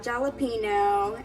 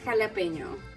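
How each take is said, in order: First: The 'n' is plain, with no 'y' glide. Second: The 'n' is followed by a 'y' glide. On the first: The speaker calls it wrong. "So it's not jalapeno" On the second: The speaker calls it right. "It's jalapeno. I mean, you should really try to say that "new" sound"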